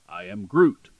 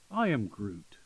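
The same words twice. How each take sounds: First: It is said in a confident, determined tone. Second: It is said in a soft, tender tone. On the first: He knows how to save the world. "if it's something going on, like he knows how to save the world, he'll say" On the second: It is a matter of love. "it's a question of love or something like that, he'll say"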